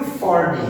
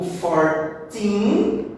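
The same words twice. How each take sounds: First: "forty" stressed on the first syllable, falling; FOR-ty, front-stressed. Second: Put-on "fourteen" slow, with a long rising TEEN; four-TEEN, end-stressed. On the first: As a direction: hit the start of "forty" and drop the end. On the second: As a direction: draw out the final syllable of "fourteen". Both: Shown as a demonstration. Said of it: "a mesma stressed syllable".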